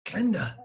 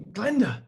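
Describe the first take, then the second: First: Calling her name. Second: Much higher, louder insistent call. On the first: Trying to get Glenda's attention. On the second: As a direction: call Glenda again, more insistently. Calling her name louder. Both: Acted.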